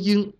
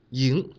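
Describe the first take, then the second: First: The pitch stays high and level. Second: The pitch rises from mid to high. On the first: "一声" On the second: "二声"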